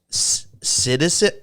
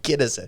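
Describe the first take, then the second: First: The word begins with a soft S sound. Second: The word begins with a hard K sound. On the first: "am I pronouncing this right?" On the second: "It's a hard K sounding"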